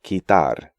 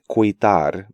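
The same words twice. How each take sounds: First: The u is silent after the k. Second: The u is sounded after the k. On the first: The speaker calls it right. "U is silent in these sequences" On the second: The speaker calls it wrong.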